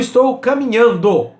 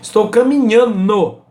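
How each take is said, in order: First: The d in the ending is clearly pronounced. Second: The d in the ending is left out. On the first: The speaker calls it right. "Esse é o correto" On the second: The speaker calls it wrong. "as pessoas tiram o D"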